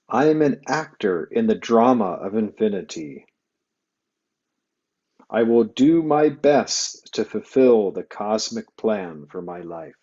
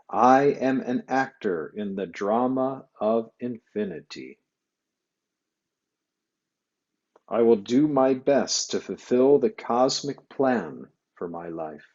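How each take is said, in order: First: It is said aloud at normal loudness. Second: It is said aloud but more softly.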